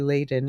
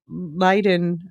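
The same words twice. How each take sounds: First: The name is said with an English pronunciation. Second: The name is said with a Dutch pronunciation. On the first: "It's probably Leiden in English" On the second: "I'm pronouncing it the Dutch way"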